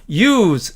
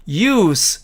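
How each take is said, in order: First: Use를 동사처럼 z로 끝내기; verb use. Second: Use를 명사처럼 s로 끝내기; noun use. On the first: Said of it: "이렇게 발음한다는 뜻입니다". (동사 use, 즈 발음) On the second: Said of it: "이렇게 발음을". (명사 use, 스 발음) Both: Shown as a demonstration.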